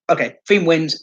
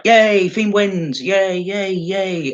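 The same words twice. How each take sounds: First: Said in the usual way. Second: Hammed-up fake celebration, dragging each yay; sarcastic cheer. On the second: Unimpressed fan mocking the Fiend's win with sarcastic cheers. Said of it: "It's like".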